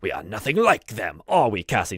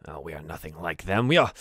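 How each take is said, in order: First: Put-on firmer, prouder old butler; dignified insistence. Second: Dismissive aside. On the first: Butler straightens his vest, proudly insistent. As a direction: draw yourself up and declare it. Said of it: "he straightens up on his, his back". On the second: Acted. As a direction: brush it off under your voice. Butler disowns the other goblins.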